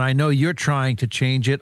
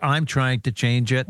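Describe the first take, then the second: First: You're leaned on a little; slight lift on the word you're; stress on you're. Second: I'm leaned on a little; slight lift on the word I'm; stress on I'm. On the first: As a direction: press lightly on you're, then let it go. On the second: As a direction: press lightly on I'm, then let it go. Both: Real, not acted. Contrasting you and me.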